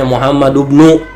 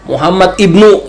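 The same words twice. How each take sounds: First: The i-sound of 'ibnu' is dropped and linked. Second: The i-sound of 'ibnu' is pronounced with a catch. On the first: The speaker calls it right. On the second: The speaker calls it wrong.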